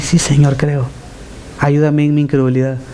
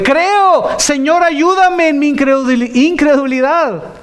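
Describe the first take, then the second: First: It is said calmly, without urgency. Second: It is cried out desperately.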